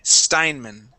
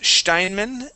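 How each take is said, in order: First: The name is said the American way. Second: The name is said the German way. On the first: "the U S we would say Sty, Steinman" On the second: "it may be pronounced Steinman in Germany"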